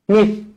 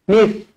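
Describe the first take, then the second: First: It starts with a th sound, tongue out. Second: It starts with a th sound, tongue out.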